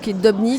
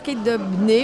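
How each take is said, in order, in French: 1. Le nom est prononcé avec un accent français. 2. Le nom est prononcé avec un accent anglais. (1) "ou pas" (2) "selon si on est anglophone"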